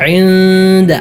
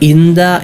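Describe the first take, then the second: First: It begins with a throaty, tight ayn sound. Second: It begins with a plain glottal stop. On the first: The speaker calls it right. "ഇൻദ ഐനാണ്, അങ്ങനെ തന്നെ ഉച്ചരിക്കണം" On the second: The speaker calls it wrong. "ഹംസയായല്ല മൊഴിയേണ്ടത്"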